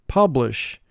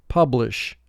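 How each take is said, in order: Both takes have the same delivery.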